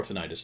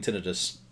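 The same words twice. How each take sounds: First: Tinnitus with stress on the middle syllable, tih-NY-tus; alternative pronunciation of tinnitus. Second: Tinnitus with stress on the first syllable, TIN-ih-tus; first pronunciation of tinnitus. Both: Shown as a demonstration. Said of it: "depending on how you pronounce it".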